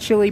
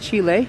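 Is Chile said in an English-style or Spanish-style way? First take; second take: English-style; Spanish-style. First: The name is said in an English-style way. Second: The name is said in a Spanish-style way. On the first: The speaker calls it wrong. "I know people that pronounce it Chile, but it's not pronounced Chile" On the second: The speaker calls it right. "it's pronounced Chile"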